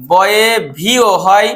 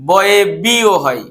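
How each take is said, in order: First: Slow, with ভিও sounded as a clear V; teacher slowly sounding ভিও with a V; V sound for বয়ে. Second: Slow, with বিও sounded as a plain B; teacher slowly sounding বিও with a B; B sound for বয়ে. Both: Shown as a demonstration. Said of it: "এই দুটোই হয়।".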